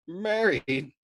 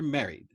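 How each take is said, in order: First: High, loud mocking disbelief; incredulous echo. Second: Said in the usual way. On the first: Arfi mocking Nately's wedding plan, incredulous. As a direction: toss the word back, amused and amazed. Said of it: "Arfi's indulgent merriment swelled".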